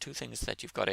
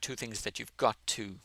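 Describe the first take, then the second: First: The phrase is said quickly. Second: The phrase is said slowly. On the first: "you have to say it quickly for it to sound correct" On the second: "slower would be"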